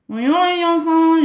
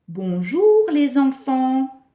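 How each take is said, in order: First: The words are mumbled and poorly articulated. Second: The words are clearly and carefully articulated. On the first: The listeners cannot understand it. The speaker calls it wrong. "je n'ai pas articulé" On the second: Everyone understands it. The speaker calls it right. "là tout le monde a compris"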